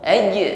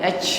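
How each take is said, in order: First: The j is a plain consonant sound. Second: The j ends with a bouncing puff of air. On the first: The speaker calls it right. "bunyi huruf jim" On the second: The speaker calls it wrong. "bukan angin yang memantul"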